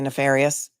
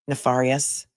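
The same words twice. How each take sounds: First: The word is pronounced in the usual way. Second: The word is pronounced in an unusual, imitated way. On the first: This is how most people say it. "We say nefarious" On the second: This is how another person says it. "He says nefarious"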